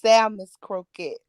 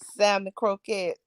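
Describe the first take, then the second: First: Salmon is said with a final s sound. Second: Salmon is said without a final s sound. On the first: The speaker calls it right. "It's salmon's croquette" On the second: The speaker calls it wrong. "you said it wrong, baby. It's not um salmon croquette"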